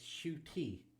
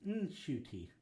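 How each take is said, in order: First: The name starts directly with an sh sound. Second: The name starts with an n sound before sh. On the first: The speaker calls it wrong. "as in shoe and tea" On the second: The speaker calls it right. "you are meant to pronounce the N"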